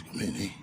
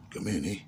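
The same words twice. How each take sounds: First: Soft and hushed, almost under the breath; hushed and wary, barely audible; real quiet voice. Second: Soft, hushed invitation; a quiet, wary murmur from the floor. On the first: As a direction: murmur it from the dark room. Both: Retold or imitated. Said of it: "Real, you know, real quiet voice".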